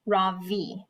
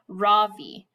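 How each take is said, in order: First: "Ravi" with a soft Ra and a strong V; "Ravi" said the proper way, soft Ra and strong V; correct pronunciation. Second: "Ravi" stressed on the first syllable; "Ravi" the American way, first syllable stressed. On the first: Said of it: "with a soft Ra and a strong V". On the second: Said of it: "with the stress on the first syllable". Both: Shown as a demonstration.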